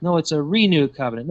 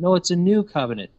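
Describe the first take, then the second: First: "renewed" leaned on, quoting the view; mock-quoting the camp that says "renewed"; stress on renewed. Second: "new" leaned on, quoting the other view; mock-quoting the camp that says "new"; stress on new. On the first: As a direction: stress the word "renewed" in "a renewed covenant". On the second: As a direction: stress the word "new" in "a new covenant". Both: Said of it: "They always default to Torah or law".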